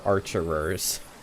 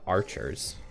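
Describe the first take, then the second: First: The word has an extra third syllable. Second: The word has only two syllables. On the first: It names someone who wields a bow. The speaker calls it right. "But they are archerers" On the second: It sounds like a male name. The speaker calls it wrong. "They're not archers"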